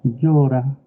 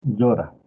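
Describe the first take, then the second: First: "Llora" said higher and louder with a Pasto rising melody; Pasto sing-song. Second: "Llora" read flat and level like a computer. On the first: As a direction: give "Llora" the lilting Pasto tune, worried. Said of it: "el pastuso le va a decir". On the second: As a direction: say "Llora" with no melody at all, like a machine. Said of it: "el computador le va a decir". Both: Shown as a demonstration.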